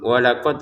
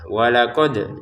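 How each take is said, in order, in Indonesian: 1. Bunyi d terakhir ditahan datar tanpa pantulan. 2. Bunyi d terakhir dilepas dengan pantulan yang bergema. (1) "jangan hanya dibaca" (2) "wajib kita membacanya"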